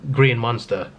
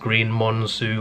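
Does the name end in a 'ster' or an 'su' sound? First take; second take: ster; su. First: The name ends with a clear 'ster' sound. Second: The name ends with an 'su' sound. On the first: The speaker calls it wrong. "it's not pronounced like that" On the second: The speaker calls it right. "I think it's just pronounced Green Monsu or something"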